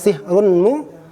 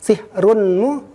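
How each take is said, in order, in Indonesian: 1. Bunyi n dibaca sebelum m. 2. Bunyi n dibaca sebelum m.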